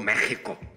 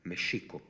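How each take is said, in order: First: The middle consonant is not an sh sound. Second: The middle consonant is an sh sound. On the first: This is how a Spanish settler ended up saying it. "¿qué le salió?" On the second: This is the original native pronunciation. "que es sh"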